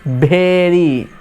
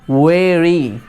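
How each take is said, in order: First: It starts with lips pressed together, b-like. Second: It starts with lips apart, v-like. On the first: The speaker calls it wrong. "Lips सट जाएगा भेरी" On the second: The speaker calls it right. "Lips नहीं सटना चाहिए, तो होगा वेरी"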